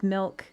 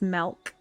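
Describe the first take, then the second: First: It is said in a neutral American accent. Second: It is said with a Western mountain twang.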